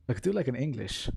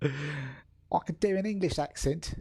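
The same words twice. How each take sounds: First: Said in the usual way. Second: Hammed-up English accent, slow and higher; drawn-out mock English accent. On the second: Shown as a demonstration. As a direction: try on an exaggerated English accent.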